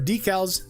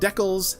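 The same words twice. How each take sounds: First: It is said the American way. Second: It is said the Canadian way.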